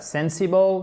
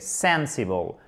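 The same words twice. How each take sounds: First: The stress falls on the last syllable. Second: The stress falls on the first syllable. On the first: The speaker calls it wrong. "c'est pas sensible" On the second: The speaker calls it right. "Accent tonique sur la première syllabe"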